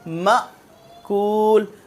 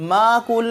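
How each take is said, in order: First: The first syllable is cut off with a sharp catch. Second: The first syllable flows on without a catch. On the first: The speaker calls it right. "अब यहां पर झटका" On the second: The speaker calls it wrong. "मा कूल नहीं"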